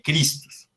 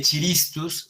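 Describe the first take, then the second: First: Christus said "KRIS-tus"; correct Latin reading. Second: Chiristus said "chi-RIS-tus"; wrong reading. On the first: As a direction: say Christus with a hard k. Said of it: "sino que se lee Christus". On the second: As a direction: misread chiristus with ch and an extra i. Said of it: "no se lee chiristus". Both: Shown as a demonstration.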